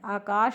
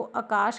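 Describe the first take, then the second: First: आकाश starting on a long aa; full long first vowel in आकाश; standard आकाश. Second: आकाश starting on a short a; shortened आकाश. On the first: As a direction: say आकाश as "aa-kaash". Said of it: "मात्रा का ध्यान ही नहीं देते". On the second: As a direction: say आकाश as "a-kaash". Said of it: "उसको आकाश कहते हैं". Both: Shown as a demonstration.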